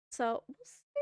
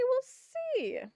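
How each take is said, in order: First: Said in the usual way. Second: Jumps way up in pitch; lilting, much higher repeat; high sing-song. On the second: Real, not acted.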